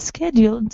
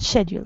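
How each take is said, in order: First: The word is said the American way. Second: The word is said the British way. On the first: "Schedule is American" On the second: "scheduled is British"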